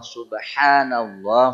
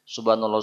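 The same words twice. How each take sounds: First: It is said slowly, with the h sound clear. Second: It is said quickly, dropping the h sound. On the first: The speaker calls it right. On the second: The speaker calls it wrong. "Kalau kalau cepat-cepat hilang satu huruf"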